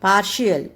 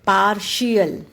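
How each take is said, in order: First: पार्शियल repeated with the same श. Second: पार्शियल with a clear श sound; model word. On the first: Teacher repeating पार्शियल for the class, steadily. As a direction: say it once more, same clear श. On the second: Teacher modelling पार्शियल for the class, carefully. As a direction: give the श firmly in पार्शियल. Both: Shown as a demonstration. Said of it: "टी की pronunciation श हो जाती है".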